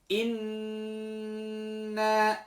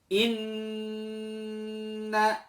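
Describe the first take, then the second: Both takes have the same delivery.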